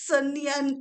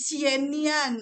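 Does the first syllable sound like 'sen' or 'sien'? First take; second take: sen; sien. First: The first syllable sounds like 'sen'. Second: The first syllable sounds like 'sien'. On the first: The speaker calls it wrong. "bukan bukan senian" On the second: The speaker calls it right. "tapi sienian"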